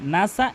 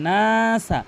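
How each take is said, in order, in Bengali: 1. 'n' এর পরের স্বরধ্বনিটি হ্রস্ব। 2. 'n' এর পরের স্বরধ্বনিটি দীর্ঘ করে টেনে পড়া হয়। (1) "এখানে মারাত্মক লেভেলের ভুল" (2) "এখানে নাসা এক আলিফ টেনে পড়তে হবে"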